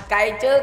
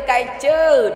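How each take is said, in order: First: Light teasing "Cay chứ" with the ending rising; teasing taunt. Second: "cay chứ" pitched higher, falling at the end in a mocking sing-song; mocking taunt. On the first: Gamer teasing the defeated enemy team, light rising taunt. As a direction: poke fun at the beaten enemy with a light rise. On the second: Gamer rubbing it in to the enemy team, higher falling jeer. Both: Shown as a demonstration. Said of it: "mình sẽ cà khịa hành động".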